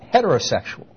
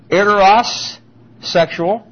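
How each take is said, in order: First: It starts with a breathy H sound. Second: It starts with a vowel, no H sound. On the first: "put the breathing in front of them" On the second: "We don't say it quite that way"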